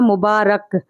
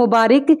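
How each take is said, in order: First: The vowel before the final k is a. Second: The vowel before the final k is i. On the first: The speaker calls it right. "सही तलफ़्फ़ुज़ होगा मुबारक" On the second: The speaker calls it wrong. "रे के नीचे ज़ेर है, तो ये गलत तलफ़्फ़ुज़ है"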